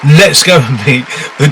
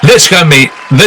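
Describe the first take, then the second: First: It is said in a put-on Welsh accent. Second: It is said in the speaker's normal accent.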